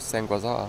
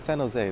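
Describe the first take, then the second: First: The name is pronounced in a strange, garbled way. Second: The name is pronounced in the usual way.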